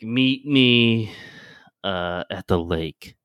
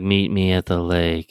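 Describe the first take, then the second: First: It is said in a natural voice. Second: It is said in a robotic voice.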